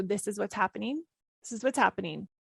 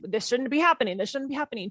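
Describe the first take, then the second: First: Calm acceptance. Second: Tense, pushing back against the moment; a touch of indignant protest; resisting, frustrated. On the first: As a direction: let it go and simply acknowledge it. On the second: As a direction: say it like you refuse what's happening. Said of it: "when I hijack my default rhythm". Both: Shown as a demonstration.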